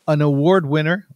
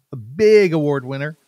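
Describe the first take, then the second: First: Award lifted and rising; stress on award. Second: Big lifted with a rising tune; stress on big. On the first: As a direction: lean on the word award. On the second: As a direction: punch the word big to top the last line. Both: Shown as a demonstration.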